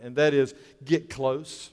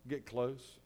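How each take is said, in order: First: Said in the usual way. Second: Hushed repeat. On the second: Real, not acted.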